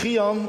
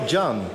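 First: The name starts with a throaty, rasping G sound. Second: The name starts with an English J sound. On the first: The speaker calls it right. "gewoon met Nederlandse G" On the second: The speaker calls it wrong. "En dan zeggen zij"

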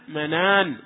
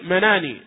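First: The final n is silent, with no vowel after. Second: The final n is followed by an i vowel. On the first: The speaker calls it right. "فتسكن النون، فتقول منان" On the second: The speaker calls it wrong. "ولا تقول مناني، لأن هذا محل وقف"

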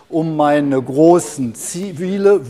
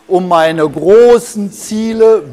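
First: It is spoken at a normal volume. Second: It is spoken somewhat louder than normal.

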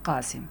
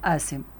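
First: The first sound is a deep q. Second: The first sound is not a deep q. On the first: The speaker calls it right. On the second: The speaker calls it wrong.

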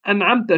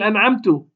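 First: The final t carries an 'a' vowel. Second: The final t carries a 'u' vowel. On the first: The favor was granted by God. The speaker calls it right. "هي شو بالأساس؟" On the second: The speaker granted the favor himself. The speaker calls it wrong. "كضم تاء أنعمته"

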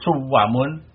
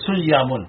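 First: The middle consonant is a w sound. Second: The middle consonant is a y sound. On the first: The original waw of the root is kept. "boleh suwamun berarti tasrih ya wawunya" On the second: The original waw is changed to ya. "kalau iklal maka diganti dengan ya"

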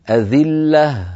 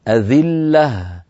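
No difference in how they are said.

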